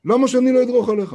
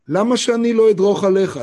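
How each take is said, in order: First: Harder defiant retort. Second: Defiant retort. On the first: Defiant man repeats, harder. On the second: Defiant man retold in story. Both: Retold or imitated.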